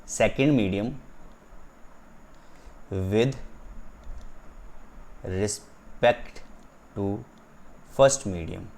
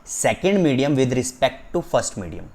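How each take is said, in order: First: "second medium ... with ... respect ... to" with long pauses between; word-by-word emphasis. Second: "Second medium with respect to first medium" as one drawn-out phrase; emphatic reading. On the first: ("second medium with respect to first medium" रुक-रुक कर) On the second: ("Second medium with respect to first medium" ज़ोर देकर, एक साथ) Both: Shown as a demonstration. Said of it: "मैं इस पे इतना जोर इसलिए दे रहा हूँ".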